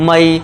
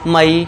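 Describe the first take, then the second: No difference in how they are said.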